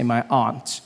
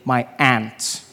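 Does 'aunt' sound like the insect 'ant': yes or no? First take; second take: no; yes. First: Aunt is said in the speaker's own accent. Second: Aunt is said locally, sounding like 'ant'.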